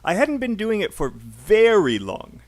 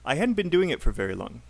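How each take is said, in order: First: The word very is stressed. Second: The word very is not stressed.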